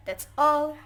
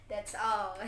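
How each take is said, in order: First: A high, loud, bright "that's all"; cheerful finish. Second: Said in the usual way. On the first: Real, not acted. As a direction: announce the end with relief. Cheerfully wrapping up presentation.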